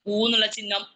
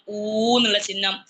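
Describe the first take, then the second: First: Said in the usual way. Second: ഊ എന്നുള്ള ചിഹ്നം said slower and louder, each word spaced; slow emphatic repeat. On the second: Shown as a demonstration. Teacher to students, repeating the sign slowly and loudly. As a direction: drill ഊ slowly for the class. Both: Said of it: "ഇതൊന്നും കുട്ടികൾക്ക് അറിയില്ല".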